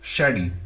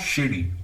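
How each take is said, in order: First: The first syllable sounds like the word shade. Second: The first syllable does not sound like shade. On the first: The speaker calls it right. "जैसे हम बोलते हैं शेड, ऐसी शैडी" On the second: The speaker calls it wrong. "It's not शेडी"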